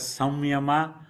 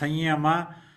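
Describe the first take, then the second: First: The middle consonant is an m sound. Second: The middle consonant is an n sound. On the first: This is how some other people say it. "some pronounce as Samyama" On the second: This is how many in northern India say it. "many in northern India pronounce Sanyama"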